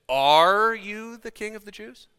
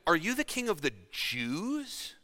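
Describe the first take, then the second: First: The stress is on the word are. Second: The stress is on the word Jews. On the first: It asks for a plain yes or no. "Looking for an affirmation or a denial" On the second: It asks whether the rule covers only one people. "Calling into question whether or not he was trying to usurp all of Rome or only one locale"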